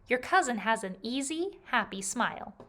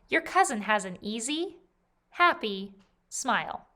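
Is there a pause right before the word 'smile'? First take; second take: no; yes. First: No pause comes before the final word. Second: A pause comes before the final word. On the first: The speaker calls it right. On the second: The speaker calls it wrong.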